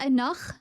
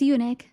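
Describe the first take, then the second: First: The word begins with an 'uh' sound. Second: The word begins with a 'yoo' sound. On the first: The speaker calls it wrong. "I thought it was like enough" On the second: The speaker calls it right. "but it's eunuch"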